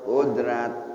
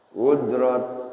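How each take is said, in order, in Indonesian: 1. R-nya ringan, dengan vokal setelahnya yang jelas. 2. R-nya berat, dengan vokal setelahnya yang gelap.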